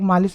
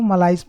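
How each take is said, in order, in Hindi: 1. शब्द 'ish' ध्वनि से खत्म होता है। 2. शब्द 'ice' ध्वनि से खत्म होता है। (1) "इसको बहुत लोग मालिश भी पढ़ सकते हैं याद रखने के लिए" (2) "लेकिन इसको हम लोग मलाइस पढ़ते हैं"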